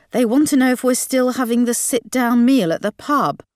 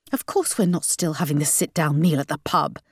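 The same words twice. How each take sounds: First: Passing on question. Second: Dismissive refusal. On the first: Dad passes on parents' question. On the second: Question thrown back as refusal. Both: A narrator's reading.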